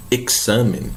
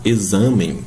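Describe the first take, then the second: First: "examen" with a crisp K-S for X. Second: "exame" with a Z sound for X; Portuguese X as Z. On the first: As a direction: say "examen" as "eksamen". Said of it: "o X tem som de K S". ("examen" com X soando KS, à espanhola) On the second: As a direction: say "exame" with a buzzing Z in the middle. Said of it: "não vai falar exame". ("exame" com X soando Z) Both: Shown as a demonstration.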